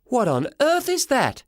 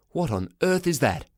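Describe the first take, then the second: First: High, slow, drawn-out disbelief; high-pitched mother's astonishment; shocked mum. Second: Baffled father. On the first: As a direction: pitch it way up, appalled. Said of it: "She said exactly the same thing". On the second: Father spots cat hat. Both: Acted.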